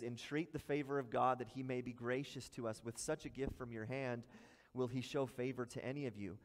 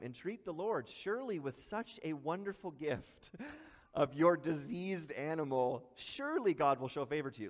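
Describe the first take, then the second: First: Said in the usual way. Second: Tongue-in-cheek, with a laugh breaking in; mock praise for a worthless gift; sarcastic. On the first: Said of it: "this is actually sarcasm". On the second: Preacher voicing God mocking the diseased offering, lightly sarcastic. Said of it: "he's being kinda tongue-in-cheek here".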